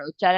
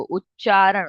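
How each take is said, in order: First: Said in the usual way. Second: उच्चारण said alone, louder and set apart; word set apart. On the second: Shown as a demonstration. Teacher breaking down the word for students, उच्चारण said slowly on its own. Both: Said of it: "break down कर लो word को".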